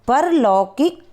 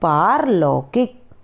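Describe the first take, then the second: First: The first vowel is a short 'a'. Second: The first vowel is a long 'aa'. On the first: The speaker calls it wrong. "पहले मैं अशुद्ध शब्द बताऊंगी" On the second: The speaker calls it right. "उसके बाद शुद्ध शब्द बताऊंगी"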